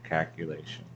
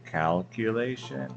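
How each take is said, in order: First: The L sound is dropped. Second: The L sound is clearly pronounced.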